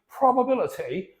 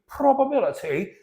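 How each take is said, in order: First: It is said in a British accent. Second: It is said in a British accent.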